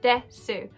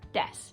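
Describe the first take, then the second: First: The final u vowel is pronounced. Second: The final u vowel is dropped. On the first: "It is written desu" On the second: "the final U sound is cut. It's just des"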